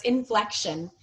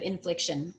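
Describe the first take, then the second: First: "inflection" with an open "eh" in FLEC; correct word modelled. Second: "infliction" with a short "ih" in FLIC; wrong word contrasted. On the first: Teacher repeats the right word, clear "flec". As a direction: say "inflection" as in-FLEK-shun. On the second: Teacher repeats the slip, short "flic". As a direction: say "infliction" as in-FLIK-shun. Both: Shown as a demonstration. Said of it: "instead of infliction".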